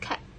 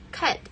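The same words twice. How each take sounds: First: The final plosive sound is left out. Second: The final plosive sound is pronounced.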